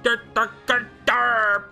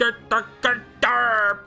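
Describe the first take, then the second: First: It is said in an exaggerated redneck accent. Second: The same.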